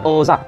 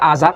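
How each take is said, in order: First: The name begins with an O sound. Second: The name begins with an A sound. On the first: The speaker calls it right. "tapi dibaca Ozar" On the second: The speaker calls it wrong. "tidak dibaca Azar"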